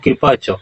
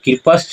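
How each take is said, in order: First: The word ends with a plain 'cha' sound. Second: The word ends with a 'shcha' sound. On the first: The speaker calls it right. "उच्चारण क्या होगा?" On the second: The speaker calls it wrong. "कृपश्च नहीं होगा"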